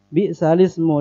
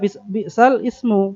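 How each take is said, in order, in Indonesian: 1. Ismu disambung dengan halus ke kata sebelumnya. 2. Ismu dimulai terpisah setelah jeda. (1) "tapi cara membacanya bi'salismu" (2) "sering orang baca bi'sal ismu, padahal itu bukan begitu bacanya"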